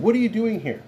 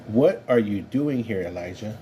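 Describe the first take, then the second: First: Much higher, pointed demand on WHAT; challenging question. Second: Calm reassuring voice. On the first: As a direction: call him out, a rebuke. God questions Elijah sharply. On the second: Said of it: "a calm, re-, reassuring voice". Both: Acted.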